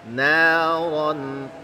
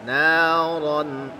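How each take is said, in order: The two takes are said the same way.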